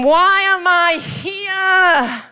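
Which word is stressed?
here. The stress falls on "here".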